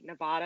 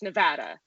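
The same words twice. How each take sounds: First: The middle vowel is a broad 'ah' sound. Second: The middle vowel is a short 'a' sound. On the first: This marks the speaker as not local. "but I still say Nevada" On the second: This is how locals say it. "according to the locals, it's a short A"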